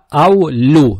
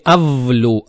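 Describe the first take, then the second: First: The middle consonant is a soft w-like glide. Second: The middle consonant is a hard v-like sound. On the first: The speaker calls it right. "а аулю" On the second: The speaker calls it wrong. "Не авлю"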